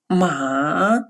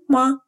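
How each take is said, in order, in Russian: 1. Тон опускается низко, потом поднимается. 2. Слог короткий, лёгкий, без ударения. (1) "с третьим тоном" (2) "с легким нулевым тоном"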